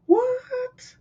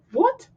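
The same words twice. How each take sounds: First: Very high, squeaked what; floored that he planted it for him, squeaky what; squeaky disbelief. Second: High, sharp disbelieving what; stunned what. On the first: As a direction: let your voice crack up in total disbelief. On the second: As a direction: shoot the word up in disbelief. Stunned by the free seedling. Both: Retold or imitated.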